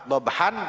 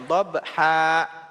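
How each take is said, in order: First: The word ends with an n sound. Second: The word ends on a long open vowel. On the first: The word is read without stopping on it. "umpama dobhan" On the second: The reader stops on this word. "dibacanya dobha"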